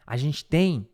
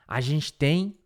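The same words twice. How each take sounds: The two takes are said the same way.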